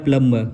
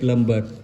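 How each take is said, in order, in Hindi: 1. b की आवाज़ चुप रहती है। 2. b की आवाज़ बोली जाती है। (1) "इसका क्या हो जाएगा" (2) "प्लम्बर नहीं पढ़ेंगे"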